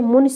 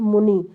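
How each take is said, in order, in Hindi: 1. शब्द का अंत छोटी 'i' स्वर से होता है। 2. शब्द का अंत लंबी 'ee' स्वर से होता है। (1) "छोटी ही मात्रा लगा के" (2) "बोलते समय बड़ी ई का प्रयोग करते हैं"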